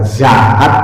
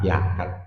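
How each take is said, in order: First: The word begins with a z sound. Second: The word begins with a y sound. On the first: "orang Demak suruh baca zakat nggak bisa" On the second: "yakat pakainya atau jakat"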